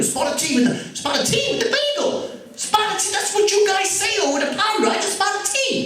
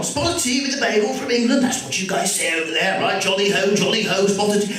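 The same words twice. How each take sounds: First: Put-on very high, frantic English accent slipping into New York; New York breaking through. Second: High-pitched fake English accent, jolly and insistent; mock English accent. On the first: Flustered shop owner carrying on, New York accent breaking through. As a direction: lose confidence as the fake accent collapses into New York. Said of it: "the New York accent started to break through". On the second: Shop owner persisting at an English customer, mock English accent. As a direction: keep up the bad English impersonation. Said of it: "And he just carried on".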